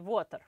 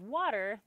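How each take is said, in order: First: It is said with a strong foreign accent. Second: It is said in a plain, unaccented way.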